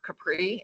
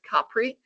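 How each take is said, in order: First: The stress is on the second syllable. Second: The stress is on the first syllable. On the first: The speaker calls it wrong. "not Capri" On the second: The speaker calls it right. "it's Capri. First syllable, X on the first syllable"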